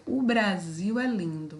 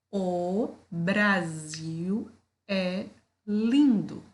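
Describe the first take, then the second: First: Said in the usual way. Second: "O Brasil é lindo" drawn out slowly with pauses between words; slow, deliberate classroom dictation. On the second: Shown as a demonstration. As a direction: split each word apart slowly for children. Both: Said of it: "vou falar pausadamente".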